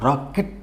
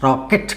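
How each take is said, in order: First: రాకెట్ softer, split as rak, et; correct split version. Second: రాకెట్ run together, k joined to the ending; wrong joined version. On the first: Teacher correcting the joined version, syllables apart. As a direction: break రాకెట్ after the k, rising at the end. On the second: Teacher showing what not to say, joined up. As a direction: say రాకెట్ as ra-ket in one go. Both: Shown as a demonstration. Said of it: "రాకెట్ కాదు".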